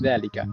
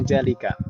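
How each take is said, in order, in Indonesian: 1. Konsonan pertama adalah bunyi 'dh'. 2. Konsonan pertama adalah bunyi 'j'. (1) "tapi zalika" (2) "Bukan jalika"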